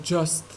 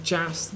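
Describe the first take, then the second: First: "just" with a short central UH vowel; correct vowel. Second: "just" with an open front A, like "jast"; wrong vowel. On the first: Teacher corrects the vowel for learners, short UH in "just". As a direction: say "just" to rhyme with "must". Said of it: "not just". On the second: Teacher shows learners the mistake to avoid, wrong vowel in "just". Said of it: "but just". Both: Shown as a demonstration.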